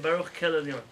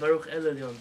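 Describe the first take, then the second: First: The word before Elyon starts with a K sound. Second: The word before Elyon starts with a vowel. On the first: A K replaces the sound to avoid saying the divine name. The speaker calls it wrong. "They say Baruch Kel Elyon" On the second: The divine name is said directly. The speaker calls it right. "Instead of Baruch El Elyon"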